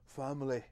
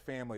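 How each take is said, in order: First: The word is said in an odd imitated accent. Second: The word is said in a plain accent.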